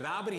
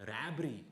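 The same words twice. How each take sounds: First: Said in the usual way. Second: Put-on Rabbery with South Indian accent. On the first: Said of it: "'Cause I said". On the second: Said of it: "in a racist South Indian accent".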